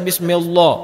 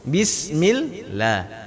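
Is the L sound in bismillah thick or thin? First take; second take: thick; thin. First: The L sound is thick and heavy. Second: The L sound is thin and light. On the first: The speaker calls it wrong. "jangan dibaca bismillah" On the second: The speaker calls it right. "lam di sini dibaca tipis"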